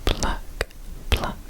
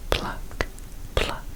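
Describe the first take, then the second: No difference in how they are said.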